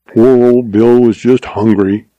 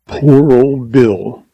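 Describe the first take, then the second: First: Brisk, defensive, no lingering; quick defense. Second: Very slow, grieving sigh over Bill; mournful. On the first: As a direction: jump in to defend Bill, not mourn him. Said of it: "in a quick defense of the deceased". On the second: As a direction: mourn him, drawing out every word. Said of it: "he exclaimed mournfully". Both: A narrator's reading.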